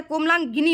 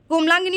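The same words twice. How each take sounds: First: कोमलांगिनी with a full gi, komlan-gi-ni; careful komlangini for कोमलांगिनी; correct form shown. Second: कोमलांगिनी squeezed to komlangni; wrong form shown. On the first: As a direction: sound every syllable of कोमलांगिनी. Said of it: "कोमलांगिनी होता है". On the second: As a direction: say कोमलांगिनी without the i after g. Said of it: "कोमलांगिनी नहीं होता है". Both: Shown as a demonstration.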